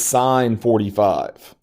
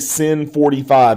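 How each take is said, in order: First: The first word is said like 'sign'. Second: The first word is said like 'sin'. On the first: The speaker calls it right. "It is sine forty-five" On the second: The speaker calls it wrong. "You don't say sin forty-five"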